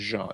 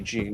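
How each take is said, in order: First: The name is said with a French pronunciation. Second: The name is said with an English pronunciation. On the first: It is how people would say it if they saw it as French. The speaker calls it right. "If my last name was a French name, then they would say Jean" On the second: It is how people usually get the name wrong. The speaker calls it wrong. "They say Jean"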